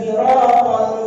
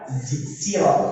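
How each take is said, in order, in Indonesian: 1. Konsonan pertama terdengar mirip z. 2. Konsonan pertama adalah s biasa yang ringan. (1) "antara sin dan zai. Sehingga mirip dengan zai" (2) "pakai sin"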